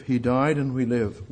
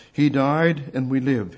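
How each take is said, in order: First: Said in the usual way. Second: Slow, every word weighed; solemn slowed proclamation; slow emphatic. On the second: Shown as a demonstration. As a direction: lay it down slowly, word by word.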